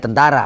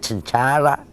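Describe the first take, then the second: First: It is said with a native Indonesian accent. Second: It is said with a foreign accent. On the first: "nggak ada tentara" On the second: "artinya Cencara gitu loh"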